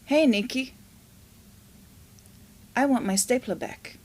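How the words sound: It is said in an angry tone.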